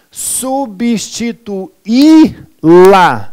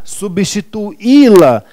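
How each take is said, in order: First: Substituí-la stretched very slowly, sub-sti-tu-í-la; syllabified word. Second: Substituí-la said slowly with stress on í; slow clear word. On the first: Teacher spelling out Substituí-la syllable by syllable, very slow. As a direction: draw out every syllable of Substituí-la. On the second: Teacher repeating Substituí-la slowly for students. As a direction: say Substituí-la clearly once more. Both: Shown as a demonstration. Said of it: "Eu vou substituí-la".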